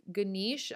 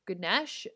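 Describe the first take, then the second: First: "Ganesh" said guh-NEESH; long-e pronunciation. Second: "Ganesh" said guh-NESH; short eh in "Ganesh", no final vowel; short-e pronunciation. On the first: Podcaster listing name variants for listeners, "Ganesh" as guh-NEESH. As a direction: say "Ganesh" with a long ee, no final vowel. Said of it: "Some people pronounce his name differently". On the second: Host unsure of the name, offering "Ganesh" as guh-NESH. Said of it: "I've heard it pronounced so many different ways". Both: Shown as a demonstration.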